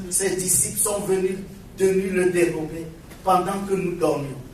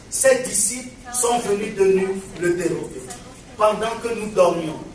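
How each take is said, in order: Both takes have the same delivery.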